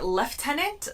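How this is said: It is said in a British accent. "they say lieutenant"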